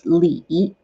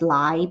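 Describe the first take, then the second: First: The vowel sounds like "ee". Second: The vowel sounds like "eye". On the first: The speaker calls it right. "So it's Li" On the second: The speaker calls it wrong. "kind of lean into pronounce it as Lai, but which is not"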